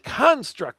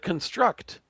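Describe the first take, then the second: First: It does not sound like 'construction'. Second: It sounds like the start of 'construction'. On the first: It names a created thing. The speaker calls it right. "as in a creation" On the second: It is read as the act of building. The speaker calls it wrong. "like construction"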